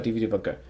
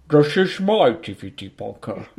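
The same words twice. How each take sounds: First: Said in the usual way. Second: Put-on British film-star voice; mock Cockney-actor voice; Michael Caine. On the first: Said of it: "here's mine". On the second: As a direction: do a hammed-up English actor impersonation. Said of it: "Oh, Michael Caine".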